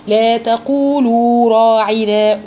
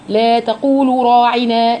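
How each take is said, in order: First: The final long vowel is held for two counts. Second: The final long vowel is cut short. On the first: The speaker calls it right. "لازم تديها وقتها" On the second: The speaker calls it wrong. "فقالت"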